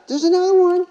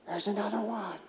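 First: Put-on much higher and louder, a thrilled child's cry; a boy squealing with delight at the window; really excited kid. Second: Put-on softer, higher kid's voice, a little awed; a child murmuring in wonder out the window; hushed excited kid. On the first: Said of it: "He's really excited". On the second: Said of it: "he's excitedly saying".

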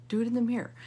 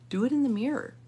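No difference in how they are said.

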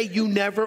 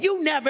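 First: Said in the usual way. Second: High accusing "You never"; mocking accusation. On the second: Shown as a demonstration. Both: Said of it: "don't say".

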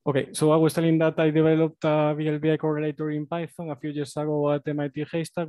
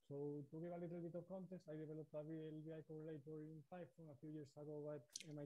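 First: Raised, louder presenting voice; speaking louder. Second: Very faint, barely audible voice; growing quieter. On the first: Presenter restarting after volume trouble, speaking louder. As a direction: project firmly into the microphone. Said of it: "I'll try to speak louder". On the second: Presenter losing volume on a remote call, growing quieter. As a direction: far softer, fading almost to nothing. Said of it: "you're actually growing quieter and quieter". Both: Real, not acted.

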